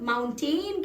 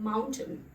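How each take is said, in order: First: The second syllable is a full 'tain'. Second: The second syllable is reduced. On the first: The speaker calls it wrong. "उसकी spelling में T A I N है" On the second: The speaker calls it right. "वो होता है माउंटेन"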